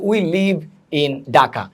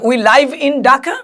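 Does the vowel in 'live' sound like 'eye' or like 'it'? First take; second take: it; eye. First: 'Live' has the short vowel of 'it'. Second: 'Live' has the long vowel of 'eye'. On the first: The speaker calls it right. "এইটার উচ্চারণ এই দেন আমরা এখানে লিখে দিয়েছি লিভ" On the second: The speaker calls it wrong. "না, এটা কিন্তু হচ্ছে না।"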